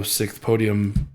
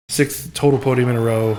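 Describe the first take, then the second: First: Said in the usual way. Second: Excited emphasis. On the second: Real, not acted. Correcting his podium count.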